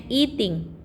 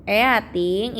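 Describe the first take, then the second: First: "eating" as ee-ting; E becomes I. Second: "Eating" as e-a-ting, both vowels sounded; spelling pronunciation. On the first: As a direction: open "eating" on one long ee. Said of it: "E-nya diganti I ya". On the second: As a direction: read "Eating" as written, eh-ah-ting. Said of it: "E-nya berat, eh, E-nya diganti I". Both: Shown as a demonstration.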